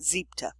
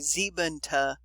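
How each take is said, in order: First: The word is clipped short to two syllables. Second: The word is said with three syllables. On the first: The speaker calls it right. "you clip it short" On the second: The speaker calls it wrong. "you don't say siebente"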